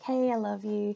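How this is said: The voice is soft and gentle. The feeling comes across gently and nicely. The speaker calls it right. "but you just want to sound like hey, I love you"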